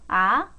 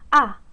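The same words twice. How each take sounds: First: The pitch rises lightly, like a small laugh. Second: The pitch drops sharply from high to low. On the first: "이성은요, 가볍게 웃으면서" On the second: "이 느낌으로 아, 아, 날카롭게만 떨어지면"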